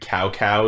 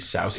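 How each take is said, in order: First: The name begins with a hard K sound. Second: The name begins with an S-like sound. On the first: The speaker calls it wrong. "they've been calling him Cow Cow" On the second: The speaker calls it right. "it's really Sao Sao"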